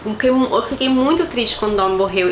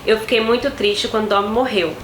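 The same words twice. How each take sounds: First: It is said with lively, emphatic intonation. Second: It is said in a flat, even voice. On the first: The speaker calls it right. "poxa, eu fiquei muito triste" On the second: The speaker calls it wrong. "uma coisa é dizer"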